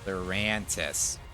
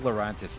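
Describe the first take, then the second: First: It is said in a Midwest Chicago accent. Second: It is said with an unusual, non-Midwest accent.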